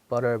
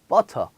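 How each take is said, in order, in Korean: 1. 가운데 t는 부드러운 d처럼 들립니다. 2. 가운데 t는 날카롭고 분명한 t입니다. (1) "D, 약간 D" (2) "영국에서는 또 이 T 발음을 또 해요"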